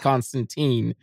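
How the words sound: The name is said the American way. "as an American, I've always said Constantine"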